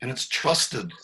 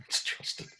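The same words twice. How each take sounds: First: Said in the usual way. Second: Whisper. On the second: Shown as a demonstration. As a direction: whisper "It's trusted" breathily after a laugh. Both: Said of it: "That's an understatement".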